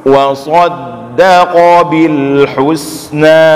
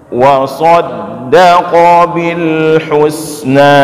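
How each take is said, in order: The two takes are said the same way.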